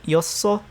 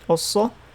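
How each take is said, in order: First: The syllable begins with a y-glide, 'yeo'. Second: The syllable begins with a plain vowel, 'eo'. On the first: This is the habitual spoken form. "I keep saying 였어" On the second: This matches the written form. "instead of um 없어"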